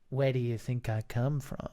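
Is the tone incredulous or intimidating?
intimidating. It sounds menacing and intimidating.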